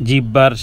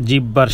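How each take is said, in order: Both takes have the same delivery.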